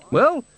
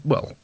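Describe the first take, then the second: First: Well rising sharply high, hesitant. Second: Said in the usual way. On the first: A narrator's reading. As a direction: start Well with a nervous high lift. Flustered hesitation before confession.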